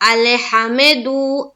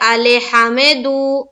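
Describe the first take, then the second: Both takes have the same delivery.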